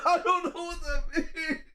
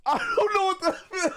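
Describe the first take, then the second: First: High, laughing and softer; giggling, a touch softer. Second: High, wailing mock despair; desperate cry. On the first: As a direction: let the laugh break through the words. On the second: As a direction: cry it out like you're at your wits' end. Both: Real, not acted.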